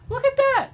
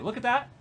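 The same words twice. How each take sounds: First: High, loud, thrilled exclamation; excited. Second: Said in the usual way. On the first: Real, not acted. She points at the stats, thrilled and loud.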